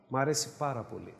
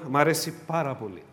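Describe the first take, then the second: First: Μ' αρέσει πάρα πολύ said softly and lower; softer repeat. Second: Said in the usual way. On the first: Shown as a demonstration. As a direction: murmur it to yourself with the stress on αρέσει. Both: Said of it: "said twice, second softer".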